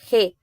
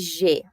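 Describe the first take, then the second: First: The first sound is harsh, made in the throat. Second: The first sound is soft, made at the front. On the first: The speaker calls it right. "forma lá atrás na garganta" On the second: The speaker calls it wrong. "eu não vou ler G"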